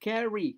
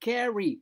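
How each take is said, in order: No difference in how they are said.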